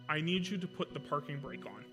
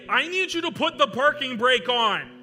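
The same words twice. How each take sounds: First: It is said in a calm, normal voice. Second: It is said loudly, as a yell.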